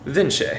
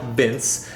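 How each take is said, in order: First: The name is said with an Italian pronunciation. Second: The name is said with an English pronunciation. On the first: The speaker calls it right. "it's pronounced Vinci" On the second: The speaker calls it wrong. "it's not pronounced like Vince"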